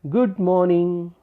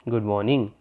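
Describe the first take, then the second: First: The greeting sounds warm and affectionate. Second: The greeting sounds flat and emotionally neutral. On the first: The speaker feels fondness for the listener. "it had affection towards the listener" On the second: The speaker shows no particular feeling. "there was neutral emotion"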